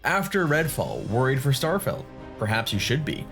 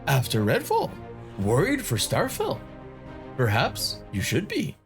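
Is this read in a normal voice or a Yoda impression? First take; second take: normal; Yoda impression. First: It is read in a plain, normal speaking voice. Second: It is read in a put-on Yoda character voice. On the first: The speaker calls it wrong. "that's not done in the, in the right voice" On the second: The speaker calls it right. "my Yoda impression"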